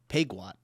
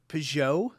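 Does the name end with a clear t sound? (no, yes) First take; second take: yes; no. First: The name ends with a t sound. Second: The name ends in a vowel, no t. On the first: This is how the speaker's group says the name. "You know how we pronounce this?" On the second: This is how the other narrator said the name. "It's the first time I've ever heard it said like that"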